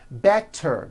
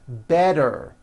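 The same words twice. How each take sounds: First: The middle consonant is a crisp T. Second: The middle consonant is a voiced D.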